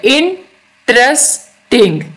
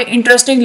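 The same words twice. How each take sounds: First: "interesting" very slowly in three separated beats; split into syllables. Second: Said in the usual way. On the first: Shown as a demonstration. Teacher showing three syllables, "interesting" beat by beat. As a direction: break "interesting" as इन, trace, टिंग with pauses. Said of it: "ये तीन syllables हैं". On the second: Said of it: "तीन syllables के".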